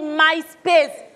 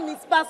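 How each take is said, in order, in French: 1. La première voyelle se prononce 'eye'. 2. La première voyelle se prononce 'ee'. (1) "on dit MySpace" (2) "On ne dit pas Mispace"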